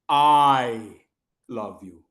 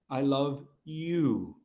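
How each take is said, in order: First: The stress falls on the first word. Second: The stress falls on the last word. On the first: The speaker, not someone else, is the one who loves. "that means that I love you, not Mohit" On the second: The listener, not someone else, is the one loved. "Not Monica"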